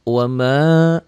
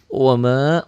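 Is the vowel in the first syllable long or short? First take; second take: short; short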